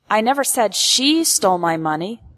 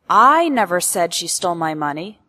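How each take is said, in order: First: The stress falls on the word she. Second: The stress falls on the word I. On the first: This person is not the one being accused. "implies that I am not accusing" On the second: Someone else said it. "implies that I never said it, but someone else did"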